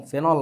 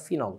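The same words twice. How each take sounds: First: ফেনল with the first vowel as "e", the textbook form; ফেনল said "fenol", the local book way; wrong pronunciation. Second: ফিনল with the first vowel as "i", like English phenol; ফিনল said "finol", the way the English spelling reads; correct pronunciation. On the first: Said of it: "ফেনল না, উচ্চারণটা ফিনল". (ভুল উচ্চারণ ফেনল, "এ" ধ্বনি দিয়ে) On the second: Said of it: "উচ্চারণটা ফিনল". (সঠিক উচ্চারণ ফিনল, "ই" ধ্বনি দিয়ে) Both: Shown as a demonstration.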